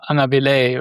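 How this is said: The name is said with a French pronunciation. "In French, it would probably be Anga, Angaville"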